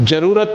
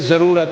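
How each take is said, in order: First: The word begins with a j sound. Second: The word begins with a z sound. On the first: The speaker calls it wrong. "ज़रूरत नहीं है" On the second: The speaker calls it right. "ये ज़रूरत है"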